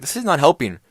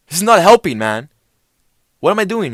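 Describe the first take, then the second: First: Louder, slightly higher complaint, first attempt; retold panicked protest. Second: High, loud hammed-up freak-out; escalating mock panic. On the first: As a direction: imitate a worried protest, raised but held back. Retold panicked plea to friend. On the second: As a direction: imitate panicking at a friend, pitched way up. Retold panic escalating at friend.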